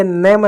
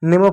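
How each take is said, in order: First: "नेम" misread with an open AI vowel, like "नैम"; wrong AI vowel. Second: "नेम" with a close, long E vowel. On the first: Teacher showing a misreading of name, "नेम" said as open "नैम". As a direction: say "नेम" as "नैम", not with a close E. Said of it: "आप इसको नाम या नेम नहीं पढ़ रहे". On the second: Teacher giving pupils the correct reading, "नेम" with long E. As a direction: sound "नेम" with a clear E, as in name. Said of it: "ए की मात्रा पढ़ रहे हो". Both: Shown as a demonstration.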